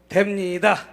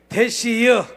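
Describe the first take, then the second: First: It is said in standard Seoul Korean. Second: It is said in a Chungcheong dialect.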